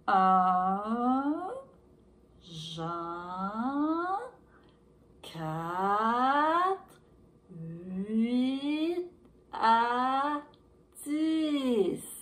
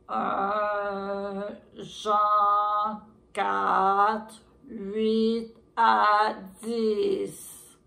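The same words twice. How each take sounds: First: It is said very slowly, like a sloth. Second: It is said in a deep, loud voice.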